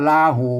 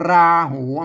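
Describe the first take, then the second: First: The first consonant is a plain L. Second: The first consonant is a rolled R. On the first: "ถ้าเอาเอาลอลิงเขียนนี่เหรอมันก็ลาหู" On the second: "มันลั่นลิ้นเลยนะ"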